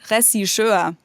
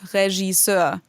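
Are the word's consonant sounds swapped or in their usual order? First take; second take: swapped; usual order. First: The consonant sounds are swapped around. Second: The consonant sounds are in their usual order. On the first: The speaker calls it wrong. "a lot of Germans actually get the the consonants mixed up, so they say" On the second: The speaker calls it right. "instead of"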